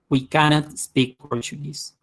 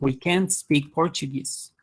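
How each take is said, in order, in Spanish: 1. La negación se dice como dos sílabas completas. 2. La negación se contrae en una sílaba corta. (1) "se pronuncia cannot" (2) "la variante más usada es can't"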